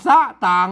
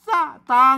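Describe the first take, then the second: First: The second syllable is not on a mid tone. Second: The second syllable is on a mid tone. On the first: The speaker calls it wrong. "เพิ่นไม่ใช่ว่าสะต่าง" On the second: The speaker calls it right. "ตางในเสียงสามัญ"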